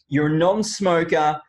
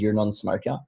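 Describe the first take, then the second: First: It is said in a lively, excited tone. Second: It is said in a flat, bored monotone. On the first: The asker is enthusiastic and engaged. The speaker calls it right. "did you pick up on the change in my tonality then? Like I, I get more excited" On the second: The asker is uninterested and disengaged. The speaker calls it wrong. "If I if I'm really bored with it, or I'm really sort of um, monotone with it"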